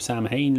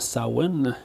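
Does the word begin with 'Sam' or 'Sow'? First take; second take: Sam; Sow. First: It is said as spelled, starting with 'Sam'. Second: It is said like 'sow-in', starting with 'Sow'. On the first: "ce qui est écrit dans le deuxième film" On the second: "qui se prononce supposément Samhain"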